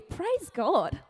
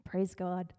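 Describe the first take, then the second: First: Higher, in disbelief; incredulous praise. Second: Softer and lower, simply content; quiet, calm praise. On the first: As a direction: ask it as if it made no sense. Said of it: "would your first thought be". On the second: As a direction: say it quietly and at peace. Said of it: "He says". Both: Retold or imitated.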